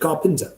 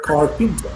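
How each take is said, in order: First: The r after the a is silent. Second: The r after the a is pronounced.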